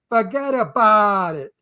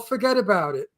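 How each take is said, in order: First: It is said in a strong Brooklyn accent. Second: It is said in a plain, non-New York accent. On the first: The speaker calls it right. "No, that's not how you say it" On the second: The speaker calls it wrong. "know what they say? Oh"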